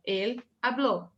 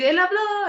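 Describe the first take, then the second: First: "habló" slower, weight on the final ó; stress on last syllable. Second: "habló" high, with a long hammed-up final ó; selling the word. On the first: Teacher explaining the accent, stressed final "habló". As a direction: push the end of "habló" without raising the volume. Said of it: "tá forçando". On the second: Teacher copying student's idea, exaggerated high "habló". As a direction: sell the end of "habló" at a much higher pitch. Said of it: "tengas que vender la palabra". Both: Shown as a demonstration.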